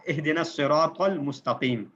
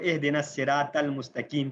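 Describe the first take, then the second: First: Slow recitation, bold ص, ط and ق in الصراط المستقیم; correct heavy letters. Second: الصراط with thin s and t, المستقیم with k; common mistaken reading. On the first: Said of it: "قاف، تو، صاد، bold letters ہیں". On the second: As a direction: flatten ق to k in المستقیم. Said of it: "غلط پڑھتے ہوئے". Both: Shown as a demonstration.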